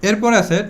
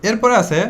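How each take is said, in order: Both takes have the same delivery.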